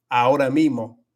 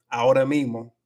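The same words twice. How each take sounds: Both takes have the same delivery.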